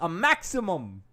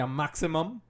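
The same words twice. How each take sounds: First: It is said in a put-on commentator voice. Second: It is said in the speaker's normal voice.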